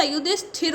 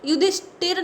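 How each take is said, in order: First: युधिष्ठिर with an aspirated Th after sh; correct consonant. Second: युधिष्ठिर with a plain, unaspirated T after sh; wrong consonant. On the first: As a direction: say युधिष्ठिर as "yu-dhish-thir". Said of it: "युधिष्ठिर होता है". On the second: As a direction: say युधिष्ठिर as "yu-dhish-tir". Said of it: "युधिष्ठिर नहीं होता". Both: Shown as a demonstration.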